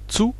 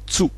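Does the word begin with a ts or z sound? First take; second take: ts; ts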